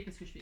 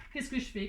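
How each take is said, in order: First: "Qu'est-ce que je fais?" dropped much softer, to herself; muttered aside. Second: Said in the usual way. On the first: Shown as a demonstration. Crafter puzzling over the cut label, asking herself much softer.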